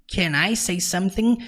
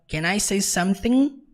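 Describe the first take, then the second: The two takes are said the same way.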